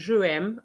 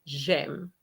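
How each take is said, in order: First: Both vowels are said separately, two syllables. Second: The first vowel is dropped, one syllable. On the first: The speaker calls it wrong. "instead of saying je aime" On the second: The speaker calls it right. "we're going to say j'aime"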